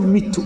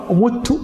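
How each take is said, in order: First: مت said mittu, short i after the m; kasra on first letter. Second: مت said muttu, short u after the m; damma on first letter. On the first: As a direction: put a short i in مت. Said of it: "تنقل الكسرة فتقول". (مت بكسر الميم) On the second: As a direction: put a short u in مت. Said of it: "بالضم". (مت بضمّ الميم) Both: Shown as a demonstration.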